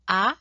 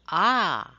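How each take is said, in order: First: The vowel is held only briefly. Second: The vowel is held about twice as long. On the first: "single vowel" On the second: "That's the long vowel"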